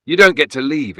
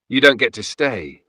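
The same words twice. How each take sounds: First: Louder, higher howl, almost non-human. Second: Louder, firm command to the spirit. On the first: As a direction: howl it at them like a trapped spirit. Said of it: "it howled". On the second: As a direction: banish it with everything you have. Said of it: "channeling everything I had". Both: A narrator's reading.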